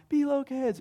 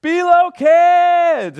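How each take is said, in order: First: High-pitched call at ordinary volume; half-hearted imitation of a holler; mock yell. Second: Long, high, full-volume holler; yelled summons. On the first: Dad retells calling the kids, mock yell. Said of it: "I yell out". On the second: Shown as a demonstration. Dad calls all the kids to come, yelling. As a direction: call through the whole house, stretching the words. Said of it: "I just yell out".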